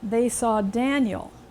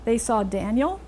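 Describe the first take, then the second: First: The pitch falls at the end. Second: The pitch rises at the end. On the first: It is a statement. "end with a pitch fall" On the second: It is a question. "if you let your pitch rise at the end"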